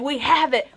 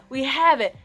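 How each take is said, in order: First: Louder, higher triumphant announcement; retold excitement, raised and loud; excited salesman. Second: Louder, higher triumphant repeat; retold excitement, raised and loud; excited salesman. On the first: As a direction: burst out with the good news. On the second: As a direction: say it again, still thrilled. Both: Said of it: "He's so excited".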